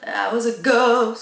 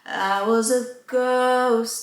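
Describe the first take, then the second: First: Ghost is pushed much louder than the rest. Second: Ghost is only slightly louder than the rest.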